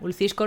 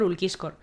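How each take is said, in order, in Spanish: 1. La c después de 'Ul' es suave. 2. La c después de 'Ul' es una k dura. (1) "yo los nombres los he leído eh, en purito español" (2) "dice que este hombre se llama Ulquiscor"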